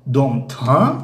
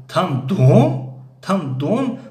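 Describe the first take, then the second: First: "там" slowly stretched and rising; question stress on ТАМ. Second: "дом" stretched and rising high; question stress on ДОМ. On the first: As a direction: ask about the place with a lift on "там". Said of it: "якумаш дар бораи макон ҳаст". (кашиши саволӣ дар "там") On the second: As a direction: ask about the house, lifting "дом". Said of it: "дуюмаш дар бораи хона аст". (кашиши саволӣ дар "дом") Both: Shown as a demonstration.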